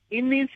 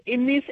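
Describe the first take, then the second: No difference in how they are said.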